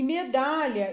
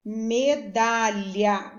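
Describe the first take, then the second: First: Said in the usual way. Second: Medalha stretched slowly, me-da-lha in three beats; syllable by syllable. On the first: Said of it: "pra falar medalha". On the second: Shown as a demonstration. Teacher sounding out a spelling word for pupils, medalha syllable by syllable. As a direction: break medalha into three slow, even syllables. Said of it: "eu abro a boca três vezes pra falar medalha".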